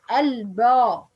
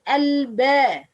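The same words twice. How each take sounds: First: "al-ba" with a heavy, backed ba; slow "al-ba", wrongly thickening the vowel after b. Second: "al-ba" with a light, thin, fronted ba. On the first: Teacher shows what not to say, heavy ba. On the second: Teacher contrasts the right way, light ba. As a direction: say "al-ba" keeping the ba's vowel light. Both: Shown as a demonstration. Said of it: "not al-ba".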